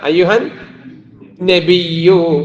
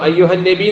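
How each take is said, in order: First: The word ends with a full doubled 'yyu' sound. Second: The word ends short without the doubled 'yyu' sound. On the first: The speaker calls it right. "യാന് ശബ്ദമുണ്ട്" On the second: The speaker calls it wrong. "എന്ന് പറഞ്ഞാൽ പോരാ"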